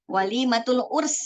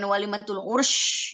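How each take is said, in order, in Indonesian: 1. Kata terakhir berakhir dengan bunyi s. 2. Kata terakhir berakhir dengan bunyi sh. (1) "Pakai sin" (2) "Bukan walimatul ursh gitu, enggak"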